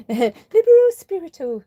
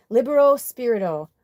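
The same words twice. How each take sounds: First: Libero spiritu said slowly, higher and louder, trying for Italian vowels; careful Italian try. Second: Libero Spirito read plainly in an American accent. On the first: Trying to say the friend's handle more beautifully, slow Italian attempt. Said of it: "even in your British accent would be better than my American". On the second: Reading a friend's handle aloud, plain American pronunciation. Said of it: "I'm not saying it in the most beautiful way". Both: Shown as a demonstration.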